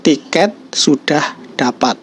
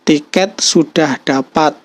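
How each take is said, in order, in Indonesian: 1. Suaranya turun datar di akhir. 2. Suaranya naik di akhir. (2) "tanda tanya"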